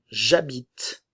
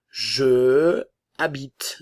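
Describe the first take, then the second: First: The e is dropped and j joins habite. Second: The e of je is pronounced separately. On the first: The speaker calls it right. "je vais éliminer le E et utiliser l'apostrophe pour former la liaison" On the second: The speaker calls it wrong. "Le E et le A entrent en conflit"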